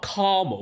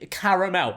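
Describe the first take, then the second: First: The word is said with two syllables. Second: The word is said with three syllables. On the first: The speaker calls it wrong. "It's not caramel. There's an A there" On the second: The speaker calls it right. "It's three"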